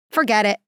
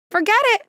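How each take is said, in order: First: Caving pilot. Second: Forget it. much higher and louder, thrown up in exasperation; exasperated pilot. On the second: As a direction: give up loudly like a fed-up pilot. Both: Retold or imitated. Pilot gives in to passengers.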